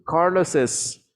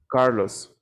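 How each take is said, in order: First: The name ends with an added es syllable. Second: The name ends in a plain s sound. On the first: "pero lo mencionamos" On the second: "se escribe igual"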